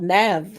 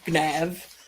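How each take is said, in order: First: The word begins with an N sound. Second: The word begins with a G sound.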